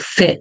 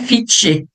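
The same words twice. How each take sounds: First: The vowel is a short, lax i sound. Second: The vowel is a long, tense ee sound. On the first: The speaker calls it right. "quando eu tenho a letra I, vai ficar com o som de E" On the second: The speaker calls it wrong. "não é fit"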